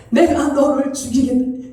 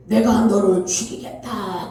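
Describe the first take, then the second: First: Said in the usual way. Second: Lower, ominous threatening voice; terrible fearsome voice. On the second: Retold or imitated. Voice claiming to be God threatening the believer, low and ominous. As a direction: menace him from somewhere lower and darker. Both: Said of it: "엄청난 무서운 목소리로".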